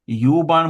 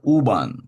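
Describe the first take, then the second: First: The first syllable sounds like 'you'. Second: The first syllable is a plain 'oo'. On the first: The speaker calls it wrong. "ते यू बाण म्हणत नाहीत" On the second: The speaker calls it right. "ते म्हणतात ऊ बाण"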